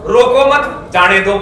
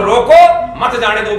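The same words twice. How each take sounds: First: "रोको मत", pause, then "जाने दो"; group "रोको मत" together, break, then say "जाने दो"; comma after मत. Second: "रोको", pause, then "मत जाने दो"; comma after रोको. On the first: Speaker shows how a comma changes meaning, pausing after "मत". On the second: Speaker shows the other reading of the sentence, pausing after "रोको". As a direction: set "रोको" apart, then run "मत जाने दो" together. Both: Shown as a demonstration. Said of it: "उसमें comma लगा लो".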